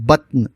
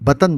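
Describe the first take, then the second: First: The t and n are joined with no vowel. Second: A short a vowel separates the t and n. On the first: The speaker calls it right. "जो दुरुस्त है" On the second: The speaker calls it wrong. "ये आम तौर से बतन बोला जाता है। जो गलत है"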